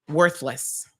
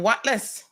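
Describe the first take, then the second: First: It is said with a standard pronunciation. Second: It is said with a Caymanian pronunciation. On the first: "the proper term is worthless, if we wanted to pronounce it properly" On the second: "We're going to just call you Whatless"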